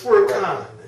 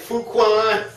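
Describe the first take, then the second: First: The q is said with a plain 'k' sound. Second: The q is said with a 'kw' sound. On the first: The speaker calls it right. "it's a cuh sound" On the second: The speaker calls it wrong. "we thought it was Qua"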